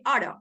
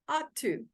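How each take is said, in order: First: The words run together quickly into one. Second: Both words are said fully and separately.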